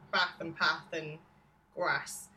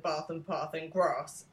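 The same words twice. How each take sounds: First: It is said in a Northern English accent. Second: It is said in a Southern English accent.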